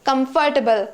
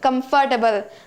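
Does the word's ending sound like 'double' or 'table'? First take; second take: double; double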